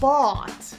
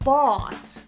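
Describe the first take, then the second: First: The vowel is a rounded aw sound. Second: The same.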